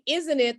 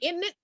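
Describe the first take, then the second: First: It is said in the speaker's usual accent. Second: It is said in a local English accent. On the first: "they don't say isn't it" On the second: "they say isn't it"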